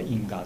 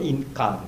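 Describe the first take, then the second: First: The middle consonant is a voiced g sound. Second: The middle consonant is a hard k sound. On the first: This is how the word is actually pronounced in speech. "多分一緒に話、発音しますと、インガですね" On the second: This is the underlying form built from its two parts. "本当はインカです"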